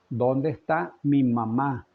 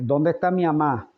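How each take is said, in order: First: Every sound of the words is articulated clearly. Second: The words are slurred, with sounds dropped. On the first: The speaker calls it right. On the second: The speaker calls it wrong.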